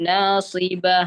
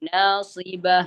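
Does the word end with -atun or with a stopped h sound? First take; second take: h sound; h sound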